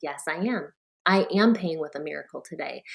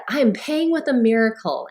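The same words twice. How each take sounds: First: Letting the belief sink in; heartfelt. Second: Said brightly through a big smile; beaming as she answers the cashier; answering the cashier with a confident smile. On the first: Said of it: "And then I felt it". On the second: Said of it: "I said it with a big smile on my face". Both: Retold or imitated.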